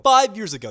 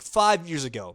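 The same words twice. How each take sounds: First: Five years ago punched higher and much louder; loud emphatic repeat of five years ago; stressed repeat. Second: Said in the usual way. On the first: Real, not acted. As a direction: hit five years ago hard the second time.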